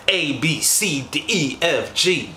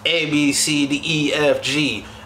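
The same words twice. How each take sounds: First: The letters are projected with lively energy. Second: The letters are read flatly, without projection. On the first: The voice is actually performed for the listener. The speaker calls it right. "the performance side" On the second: The recording is good, but nothing is performed. The speaker calls it wrong. "Anybody could be like"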